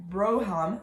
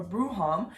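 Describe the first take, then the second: First: "Broham" with a long "oh" in the first syllable; alternative name pronunciation. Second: "Bruham" with an "oo" in the first syllable; alternative name pronunciation. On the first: Reviewer unsure of a character's name, "Broham" pronounced with BRO. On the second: Reviewer offering another reading of the name, "Bruham" pronounced with BROO. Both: Shown as a demonstration. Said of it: "I kept pronouncing it wrong".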